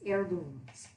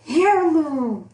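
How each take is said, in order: First: The word starts without an H sound. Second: The word starts with an H sound. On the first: The speaker calls it right. "the H is silenced there" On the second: The speaker calls it wrong. "I was trying so hard to pronounce the H"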